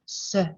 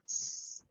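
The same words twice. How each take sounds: First: The consonant is followed by an added uh vowel. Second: The consonant is said alone with no vowel. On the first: The speaker calls it wrong. "not s" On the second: The speaker calls it right. "we would say s"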